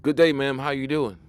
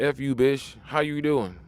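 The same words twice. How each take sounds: First: Courtly gentleman greeting, a touch louder; mock gentlemanly good-day; old-fashioned polite greeting. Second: Lightly voiced street catcall; mock rough pickup line; crude street greeting. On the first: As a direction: tip your hat and greet her properly. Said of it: "nobody talk like that no more". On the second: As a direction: toss it at her like a guy on the corner.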